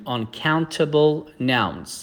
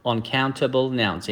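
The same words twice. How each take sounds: First: Very slow, each syllable laid out; slow teacher's model of the phrase; slow model reading. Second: Said in the usual way. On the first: Shown as a demonstration. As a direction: spell the phrase out slowly for learners. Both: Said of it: "یاد بگیریم".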